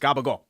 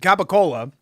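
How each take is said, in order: First: It is said with g sounds, ending -gool. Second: It is said with k and l sounds, ending -cola. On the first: "the Italian way to say it" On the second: "which is actually what it's called"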